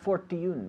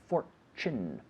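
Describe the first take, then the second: First: The middle consonant is a plain t. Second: The middle consonant is a ch sound. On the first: The speaker calls it wrong. "Not fortune" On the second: The speaker calls it right. "but fortune"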